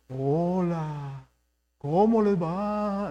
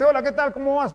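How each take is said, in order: First: It is said in a changed, solemn pulpit voice. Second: It is said in a natural everyday voice.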